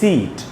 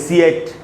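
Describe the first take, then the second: First: A single long ee vowel is heard in the word. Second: Two separate vowel sounds are heard in the word. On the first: The speaker calls it right. "हम बोलते हैं सीट" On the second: The speaker calls it wrong. "हम ये तो नहीं बोलते सीएट"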